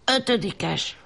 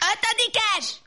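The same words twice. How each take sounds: First: It is said louder than before. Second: It is said very loudly, filling the room.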